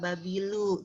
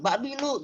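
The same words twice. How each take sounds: First: The word is said softly, without harsh force. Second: The word is said with hard, forceful intonation. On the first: The speaker calls it right. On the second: The speaker calls it wrong.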